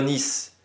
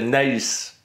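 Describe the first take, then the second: First: The name is said the French way. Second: The name is said the native way. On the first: This is an accepted French rendering of the name. "si on prononce vraiment à la française française" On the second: This is how the name is normally said. "normalement, c'est Nice"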